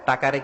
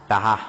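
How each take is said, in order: First: The middle consonant is a k sound. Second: The middle consonant is an h sound. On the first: This is the standard form. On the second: This is how Barishal people say it.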